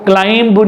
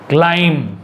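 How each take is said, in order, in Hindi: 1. इसके अंत में साफ़ सुनाई देने वाली 'b' की आवाज़ है। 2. इसके अंत में 'm' की आवाज़ है, 'b' नहीं। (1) "यहां पर आपको क्लाइंब नहीं बोलना है" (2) "बी साइलेंट है"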